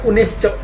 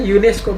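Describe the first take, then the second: First: The word is pronounced the Indonesian way. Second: The word is pronounced the English way. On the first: The speaker calls it wrong. "bukan UNESCO" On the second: The speaker calls it right. "akronim itu baru dilafalkan tetap menggunakan bahasa aslinya"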